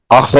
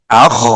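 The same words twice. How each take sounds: First: اخ with a hard bounced kh; harsh kh. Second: اخ with a gently fading kh; soft kh. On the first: Teacher showing the wrong harsh reading, bounced kh. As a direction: spit the kh in اخ out hard. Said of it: "یہ نہیں کریں گے، سختی نہیں کریں گے". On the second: Teacher showing the soft right reading, gentle kh. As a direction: breathe the kh in اخ out softly. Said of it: "نرمی سے". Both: Shown as a demonstration.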